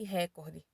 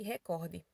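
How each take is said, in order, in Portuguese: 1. A sílaba tônica é a primeira. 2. A sílaba tônica é a segunda.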